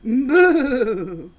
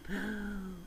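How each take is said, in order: First: The word is said loudly and forcefully. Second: The word is said quietly and gently. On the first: "This is a loud boo" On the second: "This is a soft boo"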